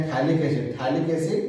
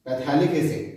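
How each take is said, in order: First: थैलिक said as thalic with no p sound; silent ph. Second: पैथैलिक said with a sounded p, half laughing; mock wrong पैथैलिक with a laugh; wrong pronunciation. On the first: Teacher giving the right reading: थैलिक with ph silent. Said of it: "पीएच का जो उच्चारण होता है वो silent होता है". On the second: Teacher showing the wrong reading: पैथैलिक with sounded p. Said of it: "इसमें थोड़ा गलत है". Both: Shown as a demonstration.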